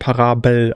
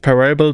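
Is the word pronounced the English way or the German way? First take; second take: German; English. First: The word is pronounced the German way. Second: The word is pronounced the English way. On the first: The speaker calls it right. "sondern Parabel, also auf Deutsch" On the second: The speaker calls it wrong. "also nicht Parable"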